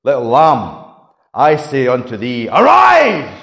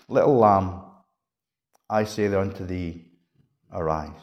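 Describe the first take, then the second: First: Dramatic storytelling. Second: Low, soft, hushed words; gentle. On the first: Shown as a demonstration. Preacher telling children the story, dramatic. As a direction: start firm, then burst out on "arise!". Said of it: "I would probably say it like this". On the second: Acted. Jesus to the sleeping little girl, gentle. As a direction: say it low and tenderly, trailing softer. Quiet reading of the gentle version.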